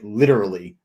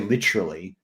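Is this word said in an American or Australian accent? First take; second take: American; Australian. First: It is said in an American accent. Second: It is said in an Australian accent. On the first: "whereas I say literally" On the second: "in Australia, you'd say literally"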